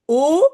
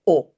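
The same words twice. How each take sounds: First: Long closed "o"; "o" stretched, louder, closed vowel. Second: Short open "o"; "o" as a quick open vowel. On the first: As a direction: hold "o" as a rounded, pure oh. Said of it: "on appelle ça un long o". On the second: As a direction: say "o" briefly, as in French "sol". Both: Shown as a demonstration.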